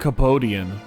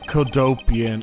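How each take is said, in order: First: The name begins with a 'kap' sound. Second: The name begins with a 'kod' sound. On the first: The speaker calls it wrong. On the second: The speaker calls it right.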